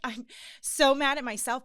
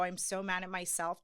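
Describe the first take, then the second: First: Higher and louder, welling up; emotional outburst. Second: Said in the usual way. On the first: Retold or imitated. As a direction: let the feeling break through. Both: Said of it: "Oh, I'm not even gonna get emotional".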